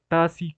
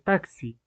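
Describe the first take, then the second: First: The middle consonant is a plain s sound. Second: The middle consonant is a ks sound. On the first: The speaker calls it wrong. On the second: The speaker calls it right.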